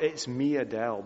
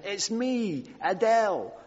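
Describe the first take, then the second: First: Said in the usual way. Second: High, light North London accent imitation; chirpy North London girl at the gate, mildly imitated. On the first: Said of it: "It's not". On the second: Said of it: "in her North London accent".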